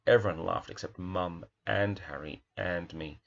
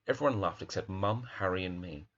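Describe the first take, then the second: First: "Mum", "Harry" and "me" each given their own weight, with "and" between; stress on each item. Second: Said in the usual way. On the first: Shown as a demonstration. Teacher showing the class why each item matters, separate stresses. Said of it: "there's a real emphasis so that each object has its own". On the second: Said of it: "the opposite would be".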